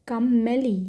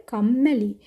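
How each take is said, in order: Both takes have the same delivery.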